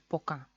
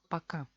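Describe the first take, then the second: First: The first vowel is a full 'o' sound. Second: The first vowel is reduced to an 'a' sound. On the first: This is the official pronunciation. "como es oficialmente, tiene que ser poca" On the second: This is how Russians actually say it. "los rusos lo pronuncian paca"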